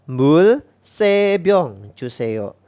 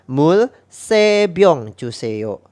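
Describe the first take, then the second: No difference in how they are said.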